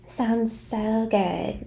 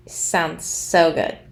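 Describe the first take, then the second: First: Put-on soft, drawn-out Valley Girl voice; mock Valley Girl, slow and hushed; fake Valley Girl. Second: Said in the usual way. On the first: Commentator mimicking Jamie's fake voice, slow Valley Girl. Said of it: "In her fake Valley Girl voice". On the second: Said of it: "if I was Jamie and I looked out".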